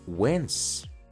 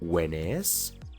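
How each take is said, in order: First: The word 'is' is reduced to a final s. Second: The word 'is' is said as a full syllable. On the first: The speaker calls it right. "mejor di" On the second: The speaker calls it wrong. "En vez de decir"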